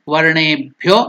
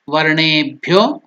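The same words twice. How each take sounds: The two takes are said the same way.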